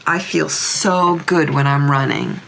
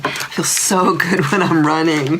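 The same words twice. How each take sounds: First: Said in the usual way. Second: Amused reread, chuckle mid-line; fond laugh in the middle. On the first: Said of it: "repeat with laugh". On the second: Retold or imitated. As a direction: repeat it with a laugh breaking in. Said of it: "rereading with a laugh".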